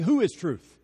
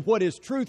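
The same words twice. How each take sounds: First: WHO is truth, with the weight on WHO and a falling close; the real question, weight on WHO; stress on WHO. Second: WHAT is truth, with the weight on WHAT and a lift at the end; the question people ask, weight on WHAT; stress on WHAT. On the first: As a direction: land hard on WHO and let it drop. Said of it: "When we ask the question, "What is truth?". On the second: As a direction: lean on the word WHAT and ask it. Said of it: "we're really asking, "Who is truth?". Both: Shown as a demonstration.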